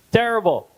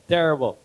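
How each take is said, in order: First: High exclaimed terrible; Terrible exclaimed higher; emphatic. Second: Said in the usual way. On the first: Real, not acted.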